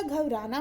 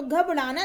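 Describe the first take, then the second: First: Said in the usual way. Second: घबराना with a flapped retroflex ṛ; wrong pronunciation. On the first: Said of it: "घबराना होता है". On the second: Shown as a demonstration. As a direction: curl the tongue for the r in घबराना, ghab-ṛa-na. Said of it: "घबराना नहीं होता".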